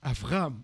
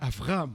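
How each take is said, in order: First: The second consonant is a V sound. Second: The same.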